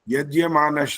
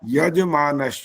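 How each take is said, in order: First: The first syllable has an added 'gya' sound. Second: The first syllable is a plain 'yaj' sound. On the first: The speaker calls it wrong. "यज्ञ मानस नहीं है ये" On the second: The speaker calls it right. "यज मानस चाहिए"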